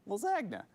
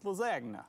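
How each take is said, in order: First: The G in the middle is silent. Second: The G in the middle is pronounced.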